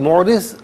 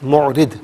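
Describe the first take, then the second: First: The word ends with a z sound. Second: The word ends with a d sound. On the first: This is how it is read in Urdu. "Urdu में पढ़ेंगे" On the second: This is how it is read in Arabic. "अरबी में"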